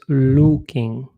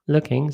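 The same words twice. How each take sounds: First: The vowel is a rounded Polish 'u'. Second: The vowel sits between 'u' and 'y', lips unrounded. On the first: The speaker calls it wrong. "to nie jest looking" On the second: The speaker calls it right. "taki dźwięk między u oraz y"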